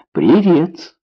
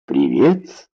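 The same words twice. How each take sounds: First: Said in the usual way. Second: Low, mechanical echo of a greeting; automatic reply. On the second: A narrator's reading. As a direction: answer on autopilot, without thinking. (машинально, на автомате) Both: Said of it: "автоматически ответил Баннистер".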